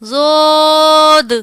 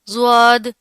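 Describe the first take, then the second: First: It is said with an Arabic accent. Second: It is said with an Urdu accent. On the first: The speaker calls it right. "Arabic accent में ... प्रॉपर तरीके से अदायगी" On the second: The speaker calls it wrong. "इस तरह नहीं पढ़ना, ये उर्दू एक्सेंट में पाए जाते हैं"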